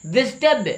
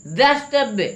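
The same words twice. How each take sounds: First: द्रष्टव्य with an "i", as "drish-tavya"; high-pitched द्रष्टव्य with "dri" at the start; mispronounced द्रष्टव्य. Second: द्रष्टव्य with an "a", as "drash-tavya"; high-pitched द्रष्टव्य with "dra" at the start; corrected pronunciation. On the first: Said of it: "द्रष्टव्य नहीं". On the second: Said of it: "द्रष्टव्य होना चाहिए". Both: Shown as a demonstration.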